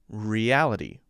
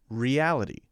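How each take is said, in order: First: The T is said as a light D. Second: The same.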